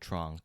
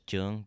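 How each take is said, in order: First: The surname is said with an English pronunciation. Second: The surname is said with Vietnamese pronunciation. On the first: This is how most people around him say it. "a lot of people call me" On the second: This is how it is said in the home language. "Vietnamese pronunciation is"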